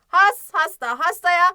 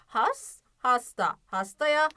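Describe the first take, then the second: First: The words are read very fast, run together. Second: The words are read at a moderately quick pace. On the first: "hızlı bir şekilde okumaya başlıyoruz" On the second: "bir tık daha hızlı okuyalım"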